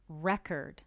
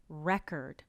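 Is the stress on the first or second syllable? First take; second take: first; first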